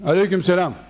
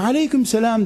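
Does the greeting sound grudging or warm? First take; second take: grudging; warm. First: The greeting sounds grudging and annoyed. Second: The greeting sounds warm and friendly. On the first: The greeter is unwelcome. The speaker calls it wrong. "Niye selam verdin der gibi aleyküm selam diyorsun adama" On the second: The greeter is welcome. The speaker calls it right. "Mütebessim olacaksın"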